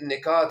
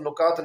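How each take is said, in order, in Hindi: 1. पहला स्वर 'i' जैसा सुनाई देता है। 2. पहला स्वर 'u' जैसा सुनाई देता है। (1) "ये लफ्ज़ असल में ये निकात है" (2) "तो असल में ये लफ्ज़ नुकात नहीं है"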